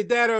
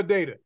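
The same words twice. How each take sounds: First: "data" with a short A, DAT-a. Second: "data" with a long A, DAY-ta. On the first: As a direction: say "data" with the vowel of "cat". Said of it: "How do you say it?". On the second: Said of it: "I lean towards the long A". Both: Shown as a demonstration.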